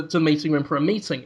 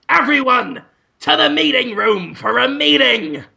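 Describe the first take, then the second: First: Said in the usual way. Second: Higher-pitched, commanding call to staff; Willem Dafoe. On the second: Acted. New boss summoning staff to a meeting, commanding call. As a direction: call it out like a self-important boss. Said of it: "And Willem Dafoe says".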